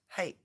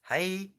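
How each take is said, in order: First: The final vowel sound is short. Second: The final vowel sound is drawn out. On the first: It means yes. "the Japanese word for yes" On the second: It is a rude insult. "All you do is elongate the I sound at the end of it"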